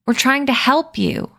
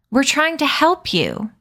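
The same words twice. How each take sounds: First: Higher, falling firmly on help; outraged repeat. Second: Higher, rising on help; outraged plea. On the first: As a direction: insist it again, flatly offended. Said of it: "he said again". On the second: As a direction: plead in disbelief. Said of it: "Addison trembled with outrage". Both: Acted.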